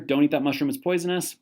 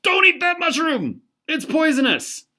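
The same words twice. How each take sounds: First: Said in the usual way. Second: High, loud warning shout; urgent yelled warning, much higher; alarmed shout. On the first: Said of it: "The argument here". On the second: Acted. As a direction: shout to stop your buddy from eating the mushroom. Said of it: "Your friend reaches out and says".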